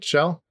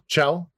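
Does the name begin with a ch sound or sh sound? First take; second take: sh; ch. First: The name begins with a soft sh sound. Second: The name begins with a hard ch sound. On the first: "am I saying that right? Shell?" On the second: "I have always said Chell"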